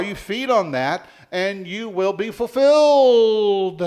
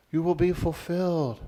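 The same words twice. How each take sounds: First: High, loud, slowing to a stretched "fulfilled"; rousing preaching. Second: Said in the usual way. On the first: Real, not acted. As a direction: proclaim the promise, holding the last word long. Preacher at climax of promise.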